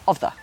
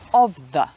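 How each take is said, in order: First: The two words are joined together. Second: The two words are said separately.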